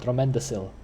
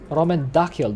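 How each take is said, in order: First: The last C sounds like an S. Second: The last C sounds like a K. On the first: "not not Romendacil?" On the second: "Is it Romendakil then"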